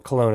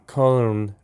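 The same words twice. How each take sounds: First: It is said with an American pronunciation. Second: It is said with a non-American pronunciation.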